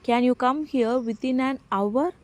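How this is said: The stress falls on within an hour. The question is about the time limit. "அந்த டைமை நம்ம கேட்குறோம் stress பண்ணி"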